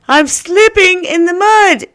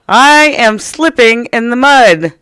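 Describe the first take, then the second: First: 'I am' is contracted into one syllable. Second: 'I am' is said as two full words.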